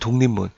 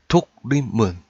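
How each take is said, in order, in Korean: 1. 음절 사이의 자음이 비음으로 동화돼요. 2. 각 음절은 적힌 대로, 동화 없이 발음해요. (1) "의문의 변동을 적용한 거" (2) "이 독립문을 그대로 발음한 거"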